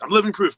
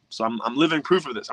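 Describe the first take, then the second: First: "living" pushed higher and louder, a proud punch on "living"; proudly insisting "I'm living proof"; emphatic repeat. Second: Said in the usual way. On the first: Real, not acted.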